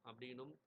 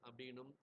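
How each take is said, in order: The two takes are said the same way.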